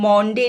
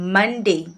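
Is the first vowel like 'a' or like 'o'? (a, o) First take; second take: o; a. First: The first vowel sounds like 'o'. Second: The first vowel sounds like 'a'. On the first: The speaker calls it wrong. "মন্ডে নয়" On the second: The speaker calls it right. "মন্ডে নয় মানডে"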